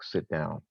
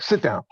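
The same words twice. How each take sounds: First: It is said in a calm, neutral tone. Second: It is said in a harsh, aggressive tone. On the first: The listener would simply comply. "you might sit down" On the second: The listener would feel disrespected. "you be like, yo, who you talking to?"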